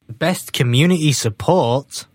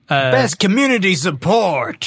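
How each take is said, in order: First: It is said flatly, with little energy. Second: It is said lively, with more energy. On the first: The speaker calls it wrong. "You didn't say that with enough" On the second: The speaker calls it right. "There we go. Gusto"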